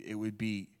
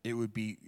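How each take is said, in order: Both takes have the same delivery.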